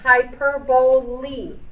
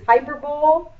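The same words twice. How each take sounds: First: The word ends with a long 'ee' sound. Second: The word ends with an 'ole' sound. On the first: The speaker calls it right. "it's hyperbole. The L-E makes a long E sound" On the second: The speaker calls it wrong. "A lot of people will pronounce this as hyperbole. Nope"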